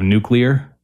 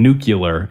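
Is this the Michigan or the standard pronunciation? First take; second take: standard; Michigan. First: It is said the usual standard way. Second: It is said the regional Michigan way. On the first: The speaker calls it right. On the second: The speaker calls it wrong.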